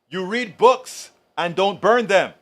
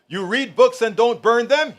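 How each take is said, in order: First: It is read in a plain, flat way. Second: It is read in a lively, stylish way.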